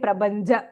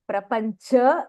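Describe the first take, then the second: First: The middle consonants are voiced, b and j. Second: The middle consonants are voiceless, p and ch. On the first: The speaker calls it wrong. "we generally we tend to say prabanja" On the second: The speaker calls it right. "so it is prapancha"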